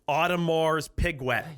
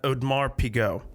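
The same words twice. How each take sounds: First: The name is said in a Pittsburgh accent. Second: The name is said in a French-style way. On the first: "And now it's from from Pittsburgh. I'd say" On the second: "I'm pronouncing that Audemars Piguet. I think that's how you pronounce it. It's French"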